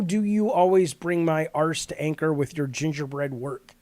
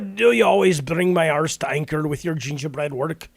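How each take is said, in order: First: It is read in the speaker's ordinary voice. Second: It is read in a put-on character voice.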